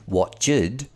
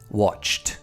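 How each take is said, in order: First: The ending is an extra 'id' syllable. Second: The ending is a plain 't' sound. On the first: The speaker calls it wrong. "We don't say watched" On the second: The speaker calls it right. "we say watched"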